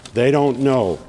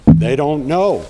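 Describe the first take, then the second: First: Said in the usual way. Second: Louder and slower, landing the point; emphatic. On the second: Real, not acted. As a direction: hit "They don't know" hard and slow. Rally speech, emphatic point.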